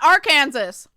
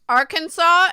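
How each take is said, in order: First: The ending sounds like the word Kansas. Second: The ending does not sound like Kansas.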